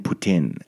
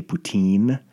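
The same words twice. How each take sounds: First: Poutine with a short i ending; poutine, second syllable rhyming with "pin"; poutine as poo-TIN. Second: Poutine with a long ee ending; poutine, second syllable rhyming with "seen"; poutine as poo-TEEN. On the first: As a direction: say poutine with "tin" at the end, falling. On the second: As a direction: say poutine with a drawn-out "teen", rising. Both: Shown as a demonstration. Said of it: "I say it in a couple ways".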